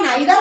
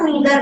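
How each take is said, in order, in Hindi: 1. पहला स्वर 'eye' जैसा बोला जाता है। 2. पहला स्वर 'ee' जैसा बोला जाता है। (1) "जिसको मैं आइदर या नाइदर करके प्रोनाउंस कर रही हूं" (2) "इसका दूसरा प्रोनाउंसिएशन ईदर और नीदर भी होता है"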